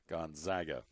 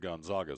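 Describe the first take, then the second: First: The middle syllable sounds like 'zag', rhyming with bag. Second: The middle syllable does not sound like 'zag'. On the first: "I'm going to go with Z A G, Zag" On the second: "But I've also heard of"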